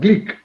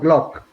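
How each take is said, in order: First: The vowel sounds like the i in 'sit'. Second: The vowel sounds like the o in 'lock'. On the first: The speaker calls it right. "The pronunciation is Glick" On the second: The speaker calls it wrong. "not Glock"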